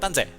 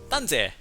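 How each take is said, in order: First: It is said quickly, like locals say it. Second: It is said at a normal, careful pace. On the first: "local when they say it fast, it will sound like" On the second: "in Hokkien it is"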